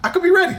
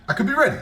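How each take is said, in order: First: Excited ready. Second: Said in the usual way. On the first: Real, not acted.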